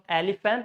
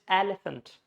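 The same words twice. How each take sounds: First: The stress falls on a later syllable. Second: The stress falls on the first syllable. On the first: The speaker calls it wrong. "So it's not elephant" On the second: The speaker calls it right. "Stress on the first syllable"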